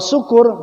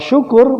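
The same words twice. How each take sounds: First: The word begins with a plain s sound. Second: The word begins with an sh sound. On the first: It means being drunk. The speaker calls it wrong. "mabok artinya" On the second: It means being thankful. The speaker calls it right. "bersyukur, terima kasih"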